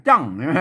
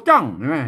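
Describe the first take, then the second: The two takes are said the same way.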